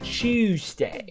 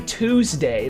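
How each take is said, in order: First: It begins with a ch sound. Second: It begins with a plain t sound. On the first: "They hit the they hit the ch and then the ew" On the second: "They don't say Tuesday"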